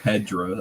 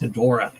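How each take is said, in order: First: The name is said without the middle O sound. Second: The name is said with the middle O sound. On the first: The speaker calls it wrong. "You're missing the O" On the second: The speaker calls it right. "I say it's Hedora"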